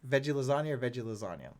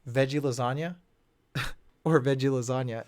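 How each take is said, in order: First: The line is tossed off casually, without emphasis. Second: The line is delivered pointedly, with heavy emphasis. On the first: The joke is left for the audience to notice. The speaker calls it right. "if he didn't put that on a pedestal that line" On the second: The joke is spelled out for the audience. The speaker calls it wrong. "the fact that they're gonna make a point"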